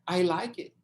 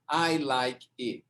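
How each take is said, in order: First: The words run together as one linked sound. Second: Each word is said separately, one by one. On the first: The speaker calls it right. "o som é I like it" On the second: The speaker calls it wrong. "mas não é I like it"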